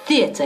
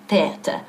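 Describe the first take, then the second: First: Theater with th, tongue between teeth; correct theater. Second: Theater with plain t instead of th; wrong t theater. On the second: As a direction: say theater with a hard t, no tongue out. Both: Shown as a demonstration. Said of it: "Theater y no theater".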